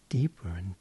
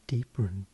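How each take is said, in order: Both takes have the same delivery.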